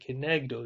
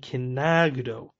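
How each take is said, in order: First: The middle vowel is an 'e' sound. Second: The middle vowel is an 'a' sound. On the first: It means 'opposite him', in the sense of opposing. "the yud is showing us to read it with that nikud of the segel" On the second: It means 'facing him', in the sense of royalty. "Like with a patach"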